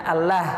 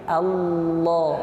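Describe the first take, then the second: First: The L is light, with the tongue kept low. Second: The L is heavy, with the tongue back raised. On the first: The speaker calls it wrong. "kita bukan menyebutnya Allah" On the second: The speaker calls it right. "tapi Allah, lo, lo, diangkat pangkal lidahnya"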